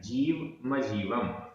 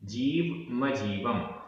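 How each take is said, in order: No difference in how they are said.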